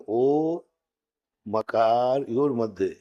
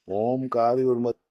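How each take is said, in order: First: ओ said apart, a break before मकार. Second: ओमकार said as one word; wrong joined ओमकार. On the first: Teacher correcting the student, ओ split from मकार. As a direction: separate ओ, then a slower मकार योर मध्य. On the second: Teacher demonstrating the wrong reading, ओमकार joined. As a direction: run ओ and मकार together as ओमकार. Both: Shown as a demonstration. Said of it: "नहीं, ओमकार नहीं".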